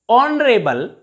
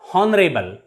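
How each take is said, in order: First: The word starts with a vowel, no h sound. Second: The word starts with an audible h sound. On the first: The speaker calls it right. "In these words, H is always silent" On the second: The speaker calls it wrong. "not honorable"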